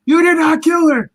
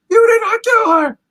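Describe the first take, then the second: First: Much higher and louder, pleading yell; desperate shout. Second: Far higher and louder near-shriek; the same plea pushed to a desperate shriek. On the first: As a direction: yell it as if begging it to be true. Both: Retold or imitated. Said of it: "he just starts telling".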